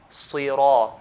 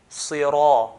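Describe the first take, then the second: Both takes have the same delivery.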